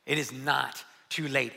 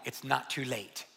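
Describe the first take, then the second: First: "It is" pressed out firmly; stress on it is. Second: Said in the usual way. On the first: Shown as a demonstration. Preacher repeats his point to the congregation, stress on "It is". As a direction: lean on "It is", then settle on "not too late".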